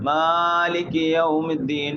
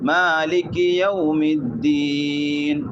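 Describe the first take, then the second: First: The first vowel is stretched out far too long. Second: The first vowel is held for a short length. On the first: The speaker calls it wrong. "ചില നീട്ടുമ്പോൾ എന്താക്കാറ്" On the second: The speaker calls it right. "ഇതാണ് ഈ രൂപത്തിലായിട്ട് ഓതനായ"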